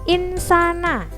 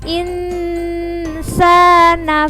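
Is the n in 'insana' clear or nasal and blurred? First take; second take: clear; nasal. First: The n is pronounced fully and clearly. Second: The n is blurred with a light nasal hum. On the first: The speaker calls it wrong. "nggak boleh insana" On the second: The speaker calls it right. "harus samar-samar seperti agak dengung tapi samar-samar"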